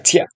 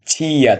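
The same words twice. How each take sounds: First: "ছিয়া" merged into one short beat, chya; blended syllable. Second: "ছিয়া" drawn out as two beats, chi-ya; syllables apart. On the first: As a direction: say "ছিয়া" quickly joined as chya. ("ছিয়া" জুড়ে ছোট করে, ছ্যা) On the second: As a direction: stretch "ছিয়া" into separate chi and ya. ("ছিয়া" ভেঙে টেনে, ছি-ইয়া) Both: Shown as a demonstration. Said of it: "আসবো যুক্ত বর্ণে".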